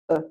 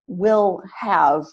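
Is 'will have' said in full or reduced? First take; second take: reduced; full. First: The words are squeezed into one quick weak syllable. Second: Both words are said fully and clearly.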